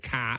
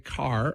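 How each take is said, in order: First: It ends without an R sound. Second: It has a clear R sound at the end.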